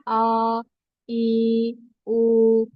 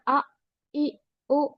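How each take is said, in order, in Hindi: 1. स्वर लंबे खींचे गए हैं। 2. स्वर झटकों के साथ अचानक कट जाते हैं। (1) "अगर हम इसको स्ट्रेच करें जिस तरह पढ़ने से मना किया गया है" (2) "ज्यादा ही जल्दी करके झटके का साउंड देना"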